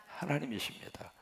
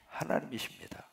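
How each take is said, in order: First: Hushed, breathy reply to his own question; soft whispered declaration; whispered answer. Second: Said in the usual way. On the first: Shown as a demonstration.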